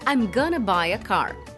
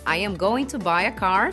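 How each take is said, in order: First: It is reduced to I'm gonna. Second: I am going to is said in full. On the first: "fica I'm gonna buy a car"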